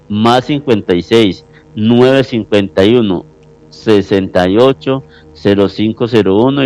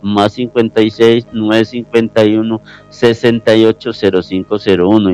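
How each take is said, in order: First: The number is said slowly. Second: The number is said at normal speed.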